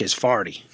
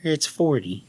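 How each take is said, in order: First: "farty" said with an AR, meaning forty; Cajun pronunciation. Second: "forty" said with a clear OR, a bit prim; standard pronunciation. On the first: Cajun schoolboy answering Miss Parker, "farty" with an AR vowel. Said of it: "she obviously thought I wasn't saying". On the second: Little Miss Jenny correcting the answer, "forty" with a clear OR. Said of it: "then little Miss Jenny". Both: Retold or imitated.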